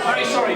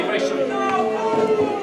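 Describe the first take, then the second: First: Said in the usual way. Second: Slow high stretched apology; high drawn-out apology. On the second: Acted. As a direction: draw the sorry out high.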